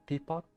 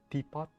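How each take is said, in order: The two takes are said the same way.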